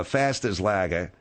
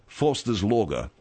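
First: "Faster's Lager" with a flat a, slowly; Australian vowel. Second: Said in the usual way. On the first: Shown as a demonstration. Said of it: "they'll say". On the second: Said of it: "instead of".

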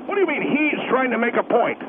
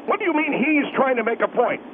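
No difference in how they are said.

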